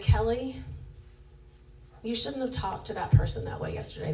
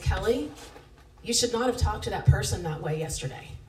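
First: The tone is gentle, kind and gracious. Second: The tone is harsh, accusing and condemning. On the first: It is a loving correction. The speaker calls it right. "Holy Spirit brings conviction and it feels good" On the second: It is an accusation meant to condemn. The speaker calls it wrong. "the tone of it is condemnation"

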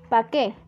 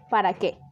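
First: The word 'para' is shortened to 'pa'. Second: The word 'para' is said in full. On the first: The speaker calls it wrong. "Palabras que se escriben o pronuncian de forma defectuosa" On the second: The speaker calls it right. "¿Correcto?"

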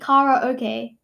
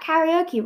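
First: The word ends with an 'ay' sound. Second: The word ends with an 'ee' sound. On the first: The speaker calls it right. "it actually rhymes with Lala okay. So it would be Kara okay" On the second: The speaker calls it wrong. "You pronounce that karaoke, right? That's what Google says"

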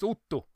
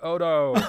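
First: The name is said with a Swedish pronunciation. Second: The name is said with an English-like pronunciation. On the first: The speaker calls it right. "it's Otto" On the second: The speaker calls it wrong. "I'm mispronouncing your name every time because I say Odo"

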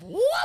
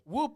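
First: It is said loudly, with an excited tone. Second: It is said flatly, with a sarcastic tone. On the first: The speaker is genuinely excited. The speaker calls it right. "Like that" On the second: The speaker does not really care. The speaker calls it wrong. "I did whoop, whoop, like as if I was being sarcastic about it"

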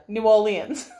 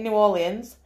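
First: The name is said with a more standard accent. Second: The name is said with a Yorkshire accent. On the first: The speaker calls it right. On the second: The speaker calls it wrong.

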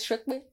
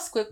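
First: The word begins with an 'sh' sound. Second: The word begins with a 'sk' sound. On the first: The speaker calls it right. "it's Shrepe" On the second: The speaker calls it wrong. "It's not Squeppe"

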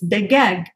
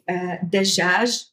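First: The middle consonant is a g sound. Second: The middle consonant is a j sound. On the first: "In Egypt, it's g" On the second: "instead of saying dajaj in UAE"

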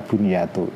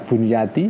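First: The word ends in the vowel u. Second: The word ends in the vowel i. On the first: "bisa bunyatu" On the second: "bisa dibaca bunyati"

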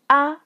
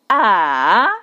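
First: The syllable is short, light and unstressed. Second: The pitch dips low, then rises. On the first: "that's the last tone" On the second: "that's the third tone"

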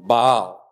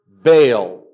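First: The name is pronounced the Hebrew way. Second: The name is pronounced the usual English way.

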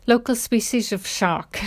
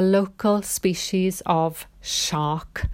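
First: The phrase is said quickly, with words running together. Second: The phrase is said at a normal, careful pace.

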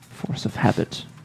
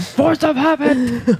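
First: It is said at a normal, quiet volume. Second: It is yelled loudly.

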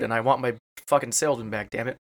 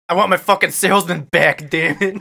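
First: It is said in his own voice. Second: It is said in a put-on accent.

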